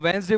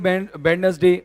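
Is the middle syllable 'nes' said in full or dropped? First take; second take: dropped; full. First: It is said in two syllables, Wens-day. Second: It is said in three full syllables, Wed-nes-day. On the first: The speaker calls it right. "तो वेंसडे बोलेंगे" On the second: The speaker calls it wrong. "ऐसे नहीं बोलेगा कि वेडनेसडे"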